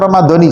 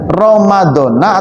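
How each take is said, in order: First: The word ends with an 'i' vowel. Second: The word ends with an 'a' vowel. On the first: The name has lost its status as a noun that cannot take tanwin. "pengucapannya ... Ramadhani" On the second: The name is treated as a noun that cannot take tanwin. "ketika jar dipatahkan"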